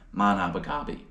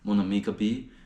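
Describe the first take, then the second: First: The name is slurred together into one word. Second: The name is said as separate, careful words. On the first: "I was pronouncing it" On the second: "a restaurant in Chicago called"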